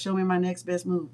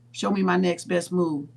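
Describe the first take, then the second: First: The phrase is said at a fast pace. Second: The phrase is said at a slow pace.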